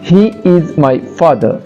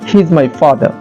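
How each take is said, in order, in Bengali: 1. "He is" দুটি আলাদা শব্দ হিসেবে বলা হয়। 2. "He is" এক সিলেবলে সংক্ষেপ করে বলা হয়।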